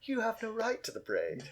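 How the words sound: It is said in a snarky, mocking tone. The speaker is mocking the other person. The speaker calls it wrong. "in a sort of snarky voice"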